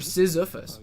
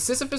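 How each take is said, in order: First: It is said with a Z sound. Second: It is said with only S sounds. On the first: The speaker calls it wrong. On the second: The speaker calls it right.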